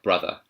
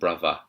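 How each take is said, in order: First: The middle consonant is a th sound. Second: The middle consonant is a v sound.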